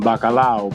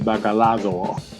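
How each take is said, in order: First: The word ends in an ow sound, no d. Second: The word has a d sound before the end. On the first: "we put like a ow at the end of our words" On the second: "but then they say bacalado"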